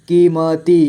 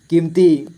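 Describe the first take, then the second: First: कीमती as की, म, ती; letter by letter. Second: Said in the usual way. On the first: Shown as a demonstration. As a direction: give म its own vowel in कीमती. (कीमती को तोड़कर: की, म, ती) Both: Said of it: "थोड़ा फास्ट पढ़ेंगे".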